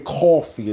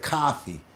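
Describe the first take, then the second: First: It is said in a New York accent. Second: It is said in a standard accent. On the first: "We say" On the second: "instead of"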